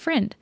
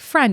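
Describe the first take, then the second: First: The vowel sounds like the one in 'pin'. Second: The vowel sounds like the one in 'pen'. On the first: "it's friend" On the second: "instead of like friend"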